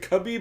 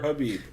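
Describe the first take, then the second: First: The name begins with a harsh K-like sound. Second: The name begins with a soft H sound. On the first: The speaker calls it wrong. "I always say it with a K" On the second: The speaker calls it right. "It's Habib"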